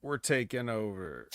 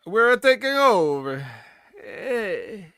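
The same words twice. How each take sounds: First: Said in the usual way. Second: Hammed-up Italian accent, higher, louder and slow, with an A added at the end of "We're"; mock Italian accent. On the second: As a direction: stretch "We're taking over" out slowly in a comic Italian accent, higher and louder. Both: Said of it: "the A at the end killed it".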